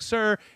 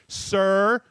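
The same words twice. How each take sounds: First: The word is said fairly calmly. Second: The word is said in a petulant tone.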